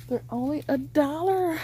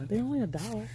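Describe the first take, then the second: First: Higher, delighted repeat; excited. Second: Said in the usual way. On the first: Real, not acted. Vlogger gushes to viewers about the one-dollar price. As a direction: sell the bargain with glee.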